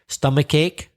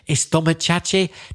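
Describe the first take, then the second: First: The word starts directly with an s sound. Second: An extra e vowel comes before the s. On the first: The speaker calls it right. "good pronunciation" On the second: The speaker calls it wrong. "pretend I'm Spanish and say it"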